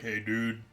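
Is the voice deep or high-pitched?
deep. A very deep, low voice. "a very deep voice"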